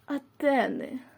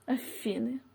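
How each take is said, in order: First: The word begins with a TH sound. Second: The word begins with an F sound. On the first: This is the newly adopted form. "now they are changing it to Athene" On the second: This is the older, traditional form. "in Ukrainian language is Afiny"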